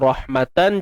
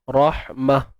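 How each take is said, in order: First: The word ends with a final -an sound. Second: The word ends with a final -ah sound. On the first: This is the full form when reading on. "contoh rahmatan" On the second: This is the form when stopping on the word. "jadi rahmah"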